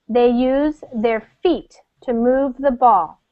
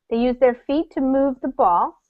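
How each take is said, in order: First: It is read slowly. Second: It is read quickly.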